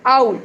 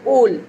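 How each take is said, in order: First: "owl" with a gliding ow, as in cow; ow sound in "owl". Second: "owl" misread as "ole", with a long oh; O sound in "owl". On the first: Teacher says it correctly here, "owl" with ow sound. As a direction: open "owl" from ah into oo, louder. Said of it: "it also gives us ow sound". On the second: Teacher shows what not to call it, "owl" as "ole". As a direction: say "owl" to rhyme with bowl. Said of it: "O W gives us a O sound". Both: Shown as a demonstration.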